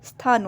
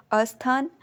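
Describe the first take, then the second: First: स्थान starting straight on a half स; correct form. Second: अस्थान with an extra अ at the start; wrong form. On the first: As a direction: begin स्थान right on the स cluster, no vowel before. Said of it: "आधा स होता है". (स्थान सही रूप, आधा स) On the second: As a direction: say अस्थान, adding an अ before स्थ. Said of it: "अस्थान नहीं होता है". (अस्थान गलत रूप, आगे अ) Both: Shown as a demonstration.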